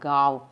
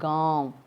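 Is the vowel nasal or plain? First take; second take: plain; nasal. First: The vowel has no nasal sound. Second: The vowel has a nasal sound. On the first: The speaker calls it wrong. "चंद्र बिंदु नहीं लगाएंगे तो ... ये अशुद्ध है" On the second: The speaker calls it right. "चंद्र बिंदु लगाने से कैसा होगा"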